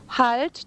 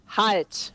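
First: It sounds like a pleading request. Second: It sounds like a firm command.

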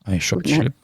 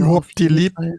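First: It is said in a Hessian regional accent. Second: It is said with an odd, foreign-sounding accent. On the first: The speaker sounds like someone from the region. "Wie heißt das auf Hessisch?" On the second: The speaker does not sound like a native of the region. "dass er das mit einem komischen Akzent spricht. Also"

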